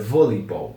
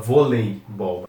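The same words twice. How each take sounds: First: The vowel after the L is nearly silent. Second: The vowel after the L is clearly pronounced. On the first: The speaker calls it right. "aqui o E é bem imperceptível" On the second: The speaker calls it wrong. "em português nós costumamos falar bastante esse E aqui"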